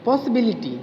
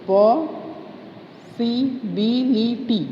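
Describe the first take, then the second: First: Said in the usual way. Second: "possibility" very slow, पॉ, सि, बि, लि, टी; long break after "पॉ", then each beat of "possibility" apart; syllable by syllable. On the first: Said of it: "sorry". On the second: Shown as a demonstration. Teacher restarting possibility, slowly syllable by syllable. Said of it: "four syllables".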